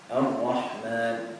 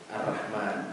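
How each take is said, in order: First: The r sound is heavy and thick. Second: The r sound is light and thin. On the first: The speaker calls it right. "ra itu ditebalkan" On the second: The speaker calls it wrong. "Mungkin ada yang punya dialek Ar-Rahman gitu. Itu tidak seperti itu"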